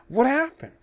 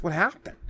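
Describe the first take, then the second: First: Surprised. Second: Said in the usual way. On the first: Real, not acted. Echoing own question, much higher.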